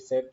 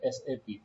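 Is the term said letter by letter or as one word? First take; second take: one word; letter by letter. First: It is said as a single word. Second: Each letter is said separately. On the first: The speaker calls it wrong. "सैप जो है एक wrong pronunciation है" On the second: The speaker calls it right. "We have to से एसएपी"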